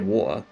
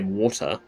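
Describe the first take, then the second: First: The middle consonant is a glottal stop. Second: The middle consonant is a clear t sound. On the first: "So I just say water" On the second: "I can't be asked to say water"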